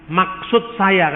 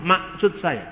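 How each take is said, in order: First: Slow "Maksud saya" with a clear K in the middle; careful K. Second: "maksud" said as "masut", K dropped and final D as T; Batak accent. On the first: Lecturer shows the correct form, slow with a clear K. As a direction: say "Maksud" slowly, K fully pronounced. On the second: Lecturer mimics a Batak speaker, soft and mild. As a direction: drop the K in "maksud", Batak style. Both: Shown as a demonstration. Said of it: "Orang Batak sulit untuk mengatakan huruf K di tengah".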